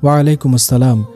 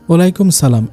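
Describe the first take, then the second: First: The second word is said as full 'assalam'. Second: The second word is said as short 'salam'. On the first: The speaker calls it right. "বলতে হবে" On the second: The speaker calls it wrong. "এটা সঠিক না"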